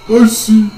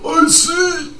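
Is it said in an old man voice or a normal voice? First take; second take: normal voice; old man. First: It is said in the speaker's normal voice. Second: It is said in a put-on old man voice.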